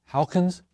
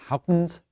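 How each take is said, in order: Both takes have the same delivery.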